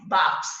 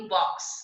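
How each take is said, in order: First: बॉक्स read as बाक्स, with plain आ; without chandra. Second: बॉक्स with a rounded ऑ, between आ and ओ; with chandra. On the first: Teacher reading बॉक्स before adding chandra, open vowel. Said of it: "जब हम चंद्र लगाएंगे". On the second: Teacher showing बॉक्स read with chandra's rounded vowel. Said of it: "चंद्र लगाएंगे तो कैसे पढ़ेंगे". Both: Shown as a demonstration.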